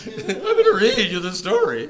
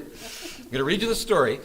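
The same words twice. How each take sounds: First: Very high, loud, laughing squeak; mock puberty squeak. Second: Said in the usual way. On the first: Teacher joking after a voice crack, hammed-up high squeak. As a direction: send the voice leaping up like a cracking adolescent. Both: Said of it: "Puberty again".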